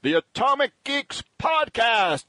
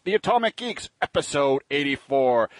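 First: Slow, higher, grand show-name announcement; announcer voice. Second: Said in the usual way. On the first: Acted. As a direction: roll out "Atomic Geeks" like a radio announcer. Host's dramatic show-name announcement.

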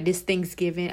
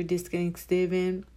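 First: "Thanksgiving" said clearly with a full "th"; corrected word. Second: "Thanksgiving" slurred, the "th" dropped, like "anksgivin"; rushed, mumbled "this Thanksgiving"; garbled word. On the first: Correcting herself to listeners, clear "Thanksgiving". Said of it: "I'm sorry". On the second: Talking about her sister, "Thanksgiving" clipped and slurred. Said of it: "I'm sorry, this Thanksgiving". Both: Real, not acted.

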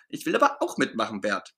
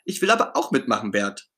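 First: Pouting as he gives up; sulking. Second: Begging to join in; eager pleading. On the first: Ernie to busy Bert, sulking after being sent away. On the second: Ernie to Bert, eagerly asking to help. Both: Acted. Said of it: "schmollt Ernie".

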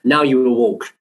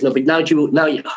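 First: Said in the usual way. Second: Higher-pitched attempt at a North African accent; imitated North African accent. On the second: Designer giving new orders, imitated North African accent. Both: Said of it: "do it in normal accent".

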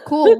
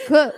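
First: Cool. said louder and higher with a rising tune; sarcastic cool. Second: Said in the usual way. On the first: Shown as a demonstration. Dismissing listeners who brought up her podcast, mock bright. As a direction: throw back Cool. with a mocking lift.

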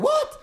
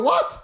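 First: "וואט" squeaked far up high; baffled high "וואט". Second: Said in the usual way. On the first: Retold or imitated. Coming closer and still not hearing the vendor, high-pitched "וואט". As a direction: shoot "וואט" way up, not having heard. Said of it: "ואני עדיין לא שומע אותו". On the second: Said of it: "אומר לו".

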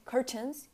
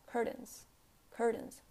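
First: "curtains" as "cur-tens" with released T; full T. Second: "curtains" ending in "in", T not released; unreleased T. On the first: Teacher showing the wrong way, "curtains" with full T. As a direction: pop the T in "curtains". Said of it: "You don't say curtains". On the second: Teacher showing American English, "curtains" with swallowed T. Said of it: "you don't pronounce the T". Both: Shown as a demonstration.

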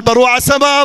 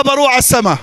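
First: السماء lifted and leaned on, the rest lighter; السماء as the peak of the phrase; stress on السماء. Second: بروح hit first and hardest, falling after; بروح stressed, a firm falling line. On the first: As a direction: land the weight on السماء. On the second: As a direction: punch بروح, let السماء drop. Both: Shown as a demonstration. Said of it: "أعيد لكم نفس الجمل".

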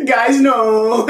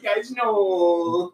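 First: High, loud whiny cry; whining voice. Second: High whiny plea; whining voice. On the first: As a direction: whine it like a panicked man. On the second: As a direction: whimper it out, pitiful. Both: Retold or imitated. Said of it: "classic Will Forte whining voice".

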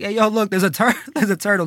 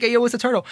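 First: Amused call to friends, breaking into a laugh. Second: A little higher, still chuckling; amused call-out. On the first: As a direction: point out the turtle while laughing. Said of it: "I'm there laughing". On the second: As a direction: call out the turtle through a laugh. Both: Retold or imitated.

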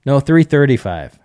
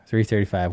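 First: Three thirty-five said louder and firmer as a correction; corrected figure three thirty-five, stressed and a bit higher; correcting the number. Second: Said in the usual way. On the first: Real, not acted.

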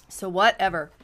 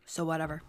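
First: Louder whatever. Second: Said in the usual way. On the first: Real, not acted.

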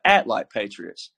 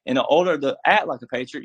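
First: Slow it down and land hard on Act; punched answer. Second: Said in the usual way. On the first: Shown as a demonstration. Answering his own question to listeners, stressing Act. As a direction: ACT said low, slow and falling. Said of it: "patriots need to do what?".

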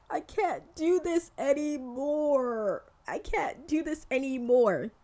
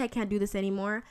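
First: High, dragged-out whine of defeat; hammed-up despairing protest; mock overwhelmed wail. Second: Said in the usual way. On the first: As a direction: wail it slowly, stretching each word. Acts out being overwhelmed by it all.

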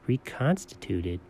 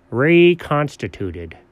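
First: "Reconstituted" very low and soft; hushed, slow, questioning "Reconstituted"; puzzled echo. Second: "Reconstituted" slow and deliberate; slow, careful "Reconstituted" as a statement; sounding it out. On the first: Quietly queries the word just read. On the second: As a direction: read "Reconstituted" out syllable by syllable. Sounds out the last word. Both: Acted.

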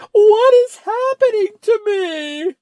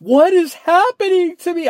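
First: High, loud, slow panicked cry; horror-movie girl. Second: High, loud panicked cry; mock horror heroine. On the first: Retold or imitated. Quoting the girl going crazy in the horror movie, high slow cry. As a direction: drag it out like a scream queen. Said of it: "And she's like". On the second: Imitating a frightened movie girl, high panicked cry. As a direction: ham up a horror-movie victim. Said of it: "this girl is going crazy".

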